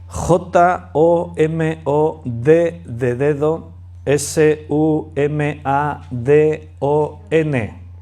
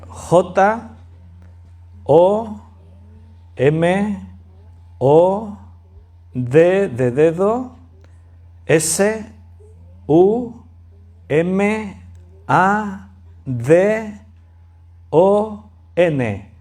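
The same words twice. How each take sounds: First: The letters are spelled out at a quicker pace. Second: The letters are spelled out at a slower pace.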